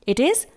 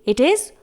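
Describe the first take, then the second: No difference in how they are said.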